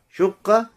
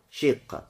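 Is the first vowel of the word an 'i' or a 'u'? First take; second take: u; i. First: The first vowel is a rounded 'u' sound. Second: The first vowel is a front 'i' sound. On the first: "С даммой" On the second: "и с кесрой"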